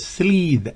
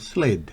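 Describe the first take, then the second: First: The vowel is a long, tense ee sound. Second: The vowel is a short i, near e. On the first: The speaker calls it wrong. "no es slid" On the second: The speaker calls it right. "Fíjense la I corta, ... Tiene un medio sonido a E"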